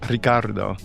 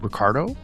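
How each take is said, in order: First: The name is said with Spanish pronunciation. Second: The name is said with English pronunciation. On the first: "Do I say it in Spanish?" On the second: "Do I say it in English?"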